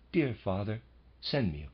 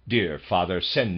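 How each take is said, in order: First: The voice sounds soft and gentle. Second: The voice sounds harsh and rude. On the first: The writer seems to be asking kindly. "in a gentle, quiet tone" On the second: The writer seems to be making a rude demand. "in a peremptory, rude tone of voice"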